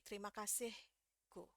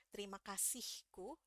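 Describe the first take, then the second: First: Terima said slowly with the e clipped, like trima; rock singer's version. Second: Terima said slowly with a clear e in te-ri-ma; careful Indonesian. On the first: Teacher imitates the rock singer, slowly. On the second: Teacher shows how the singer does not say it, slowly. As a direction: Terima kasihku said slowly, each syllable full. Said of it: "nggak bilang". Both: Retold or imitated.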